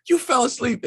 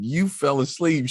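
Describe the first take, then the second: First: High, indignant you fell asleep; higher indignant charge; accusing. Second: Said in the usual way. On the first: Retold or imitated. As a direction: nail her with the accusation. Accusing wife, story climax.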